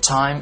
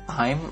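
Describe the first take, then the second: First: The t has a strong puff of air. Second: The t has no puff of air. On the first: The speaker calls it right. "tapi dibaca" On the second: The speaker calls it wrong. "nggak dibaca"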